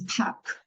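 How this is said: The R sound is dropped after the vowel.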